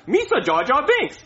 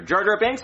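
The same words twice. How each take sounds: First: High put-on goofy alien voice; higher, silly creature imitation; Jar Jar Binks. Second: Said in the usual way. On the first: Shown as a demonstration. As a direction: show off a quick film character impression. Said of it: "I can imitate any character". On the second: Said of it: "Name a character".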